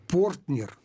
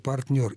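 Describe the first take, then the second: First: The first vowel is a full, clear 'o'. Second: The first vowel is a reduced 'a'. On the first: The speaker calls it wrong. "вещи совершенно немыслимые" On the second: The speaker calls it right. "вместо"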